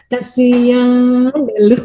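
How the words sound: It sounds teasing and mocking.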